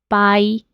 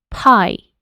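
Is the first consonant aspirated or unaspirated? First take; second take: unaspirated; aspirated. First: The first consonant is released without extra air. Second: The first consonant is released with a puff of air. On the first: The speaker calls it wrong. "no es pie" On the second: The speaker calls it right. "letras con un poco más de aire"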